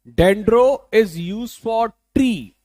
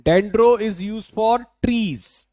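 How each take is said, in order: First: Dendro stretched out, words very slow; very slow teacher drill; slower drill. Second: Dendro said slowly with a falling end; slow teacher drill; slow repeat. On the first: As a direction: hammer it home slowly. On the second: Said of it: "Dendro is to, used for trees". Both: Shown as a demonstration.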